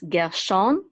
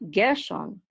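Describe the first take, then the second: First: The stress is on the second syllable. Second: The stress is on the first syllable. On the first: The speaker calls it right. "the accent mark is over is is at the um, beginning of the second syllable" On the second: The speaker calls it wrong. "not Gershon"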